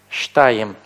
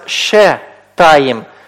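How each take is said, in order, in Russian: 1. Первые два согласных соединены без гласного. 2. Короткий гласный разделяет первые два согласных. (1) "оно будет читаться «штаим»" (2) "Это слово у нас не читается «ше таим»"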